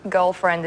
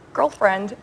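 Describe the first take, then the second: First: Put-on girlfriend in her own Australian accent, "girlfriend" with an open vowel and no r. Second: Put-on "Girlfriend" with a hard American r, "gurlfrend"; put-on American accent on "Girlfriend", r rolled in; American accent attempt. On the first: Showing the host her natural Australian "girlfriend", Australian accent. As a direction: say "girlfriend" the Sydney way, r dropped. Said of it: "I'm saying it in my normal accent". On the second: Australian actress tries American on the spot, American accent. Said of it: "Now try and say it in American".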